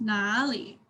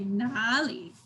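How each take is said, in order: First: The first syllable has a deep dipping tone. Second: The same.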